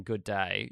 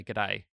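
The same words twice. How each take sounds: First: Said in the usual way. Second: "good day" with the first word squashed to a quick g'; shortened Australian greeting. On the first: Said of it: "instead of saying "good day". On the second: Shown as a demonstration. Australian explaining local slang to a friend, "good day" shortened to g'day. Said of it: "you say "good day".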